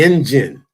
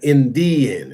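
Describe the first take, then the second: First: The middle consonant is a J sound. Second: The middle consonant is a D sound. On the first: The speaker calls it right. "The D and the I are pronounced like a J" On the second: The speaker calls it wrong. "not Indian"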